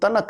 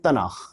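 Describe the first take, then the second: First: The word ends with a hard k sound. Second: The word ends with a raspy kh sound. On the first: The speaker calls it wrong. "यानी इसको तनक़ नहीं पढ़ेंगे" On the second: The speaker calls it right. "इसको पढ़ेंगे तनख़"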